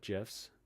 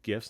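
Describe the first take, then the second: First: The word begins with a soft J sound. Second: The word begins with a hard G sound. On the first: The speaker calls it wrong. "not gifs" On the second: The speaker calls it right. "they're called gifs"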